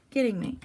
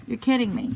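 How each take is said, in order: First: Said in the usual way. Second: Louder, exasperated "You're kidding me"; real disbelief. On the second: Real, not acted. Staring at the barely filled drum, she exclaims in exasperation. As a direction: let the disbelief burst out. Disbelief at shallow water fill.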